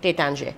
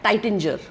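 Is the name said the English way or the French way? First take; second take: French; English. First: It is said the French way, with a nasal ending. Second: It is read as English, sounding the final r. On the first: "मी टेटांजे ह्यासाठी म्हणते की वाईनमध्ये ना प्रोनाऊन्सिएशनचं पण खूप महत्त्व आहे" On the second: "आपण आता इंग्लिश वाचलं तर आपण म्हणू"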